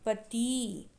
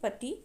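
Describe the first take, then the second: First: The final vowel is drawn out long. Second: The final vowel is cut short quickly. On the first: "ई को थोड़ा लंबा स्वर करके बोला जाता है" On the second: "तुरंत छोटा ई लगा के बोलते हैं"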